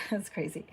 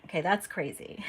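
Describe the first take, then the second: First: Softer, chuckling that's crazy; quiet laughing repeat; laughing disbelief. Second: Said in the usual way. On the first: Real, not acted. Reacting to the scam story.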